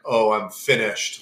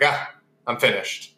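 First: It sounds defeated, like everything is over. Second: It sounds satisfied, like after a great dinner.

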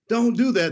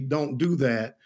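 First: It is said loudly, as a yell. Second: It is said at a calm, normal volume. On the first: Stop right now, it is urgent. "if I yell and say" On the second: Stop doing the activity. "I could certainly say"

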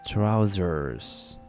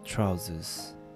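First: It is said in an American accent, drawn out. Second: It is said in a British accent, short.

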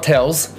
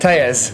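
First: The name is said like 'tells'. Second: The name is said like 'tejas'. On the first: The speaker calls it wrong. "It's not Tells" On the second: The speaker calls it right. "It's pronounced"

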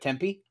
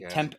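First: The word ends with a pronounced final vowel. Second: The word ends on the p, with no final vowel. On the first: The speaker calls it right. "instead of Tempe" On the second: The speaker calls it wrong. "I had somebody say Temp"

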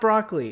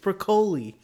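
First: It is pronounced like the English vegetable word. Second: It is pronounced with an Italian-style pronunciation. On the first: The speaker calls it wrong. "Everyone is saying broccoli" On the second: The speaker calls it right. "It's Broccoli"

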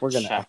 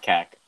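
First: The word begins with a ch sound. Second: The word does not begin with a ch sound. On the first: The speaker calls it right. "I know it starts with the CH sound" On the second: The speaker calls it wrong. "It's not Keck"

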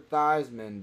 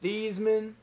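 First: The name rhymes with Heisman. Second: The name does not rhyme with Heisman. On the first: The name was changed to sound like the award. "because it sounds like Heisman" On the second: This was the name's original pronunciation. "change the pronunciation of his name from Theismann"

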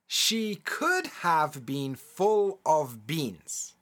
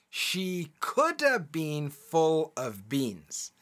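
First: The words 'could have' are said in full. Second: The words 'could have' are reduced to 'coulda'. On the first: "I'll say it as it's written the first time" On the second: "then I'll say it with the contraction the second time"

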